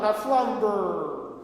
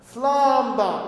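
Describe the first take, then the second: First: The word ends with an audible R sound. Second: The word ends in an open vowel without R. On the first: The speaker calls it wrong. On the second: The speaker calls it right. "So don't sing burr at the end"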